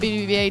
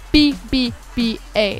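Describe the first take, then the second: First: The letters are said quickly, run together. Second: The letters are said slowly, one by one. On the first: "I say that really fast" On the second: "I slowed it down for y'all"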